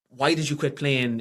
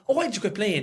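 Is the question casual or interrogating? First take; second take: interrogating; casual. First: It is asked in a demanding, interrogating way. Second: It is asked in a casual, friendly way.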